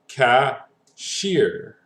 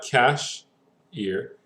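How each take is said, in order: First: The stress is on the last syllable. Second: The stress is on the first syllable. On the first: The speaker calls it right. "our emphasis is actually going to be on the last one" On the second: The speaker calls it wrong. "It's not cash ear"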